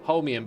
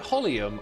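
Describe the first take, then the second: First: The word is said with an m sound. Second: The word is said without an m sound. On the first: The speaker calls it right. "I remember taking the time to try and learn how to say it" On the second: The speaker calls it wrong. "my first impression of the word always seems to stick"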